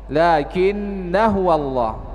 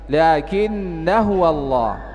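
Both takes have the same delivery.

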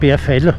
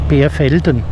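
First: The name is said in local dialect form. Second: The name is said in standard German form.

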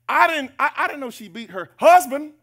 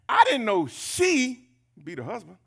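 First: The word husband is stressed. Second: The word she is stressed. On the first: The surprise is who she hits. "Well, who else? Husband? If she beat her kids?" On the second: The surprise is that she is the one hitting. "Well, who else does it?"

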